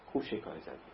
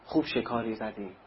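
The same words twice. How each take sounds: First: Sly gloat. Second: Said in the usual way. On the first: Retold or imitated. Profiteer gloating, repeated.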